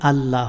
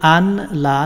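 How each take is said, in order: First: The 'n' merges into a doubled 'l'. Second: The 'n' is said separately before 'la'. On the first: The speaker calls it right. "আল্লাহ হবে" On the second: The speaker calls it wrong. "এখানে আশহাদু আন লা না হয়ে"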